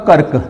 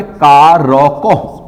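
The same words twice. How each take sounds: First: "कर्क" with र् as a half sound straight into क; half-R pronunciation. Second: "का रॉ को" slowly, letter by letter; full-R pronunciation. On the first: Teacher proving half R can be spoken, half-R pronunciation. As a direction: say "कर्क" short, no vowel after र्. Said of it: "ये आधे रॉ का उच्चारण है". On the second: Teacher spelling out कारक for contrast, full-R pronunciation. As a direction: sound out "का रॉ को" with R as a whole syllable. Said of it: "पूरा रॉ का उच्चारण है". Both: Shown as a demonstration.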